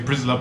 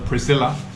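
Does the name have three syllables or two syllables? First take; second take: two syllables; three syllables. First: The name is squeezed into two syllables. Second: The name is said with three full syllables. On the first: The speaker calls it wrong. "everyone mispronounces this name. They say Prisla" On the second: The speaker calls it right. "the name that I knew as Priscilla"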